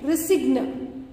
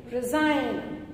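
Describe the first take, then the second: First: "resigne" with a hard G, ending in "g-nuh"; "resigne" read as spelled, hard G before N; G wrongly sounded. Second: Said in the usual way. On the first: Shown as a demonstration. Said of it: "You don't say resigne". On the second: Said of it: "You say resign".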